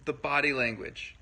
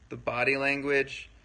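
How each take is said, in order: Both takes have the same delivery.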